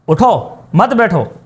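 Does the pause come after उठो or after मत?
after उठो. The pause comes right after उठो.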